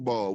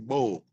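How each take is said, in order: First: It is said in a non-Philadelphia accent. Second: It is said in a Philadelphia accent. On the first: Someone not from the city says it. The speaker calls it wrong. "we don't say ball" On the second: Someone from the city says it. The speaker calls it right. "we say bowl"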